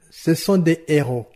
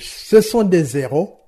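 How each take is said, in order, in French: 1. « Des » et le mot suivant sont dits sans liaison. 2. Un son [z] lie « des » au mot suivant. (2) "Je ne peux pas dire"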